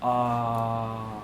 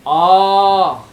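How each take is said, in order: First: The vowel is said on a level pitch. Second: The vowel is said on a high pitch. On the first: "सीधा सर आ, स्वरित" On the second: "उच्चर उदात, जब उच्च आ, ये हो गया उदात"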